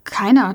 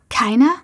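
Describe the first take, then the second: First: Said in the usual way. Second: Keiner? mit steigender Frageintonation; Keiner? fragend ansteigen lassen; ungläubig nachfragend. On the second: A narrator's reading. Ungläubige Rückfrage. (ungläubig wiederholen mit fragend hoch gezogenem Keiner?)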